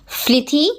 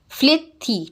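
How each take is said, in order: First: Said in the usual way. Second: फ्लिथी broken in two, "flit, thi"; split into syllables. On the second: Shown as a demonstration. Teacher showing the two syllables, फ्लिथी split as "flit... thi". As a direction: say फ्लिथी as two separate beats. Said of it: "टू syllable है".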